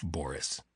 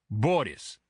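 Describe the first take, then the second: First: Said in the usual way. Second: Put-on name in a thick Russian accent. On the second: A narrator's reading. Bodyguard giving his name to the agent, thick Russian accent. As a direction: give the name with a tapped Russian R. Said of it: "in the same thick accent".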